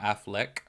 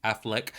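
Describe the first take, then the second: Both takes have the same delivery.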